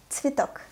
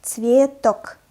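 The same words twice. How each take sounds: First: Цветок quick, first vowel reduced towards "i"; native-speaker reading. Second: Цветок said slowly and loudly, both syllables full; slow demonstration. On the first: Teacher models Цветок for learners, natural native pace. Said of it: "read the word as a native speaker". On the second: Teacher reads Цветок for beginners to imitate, slowly. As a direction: stretch out Цветок for learners. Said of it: "I will read the word slowly". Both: Shown as a demonstration.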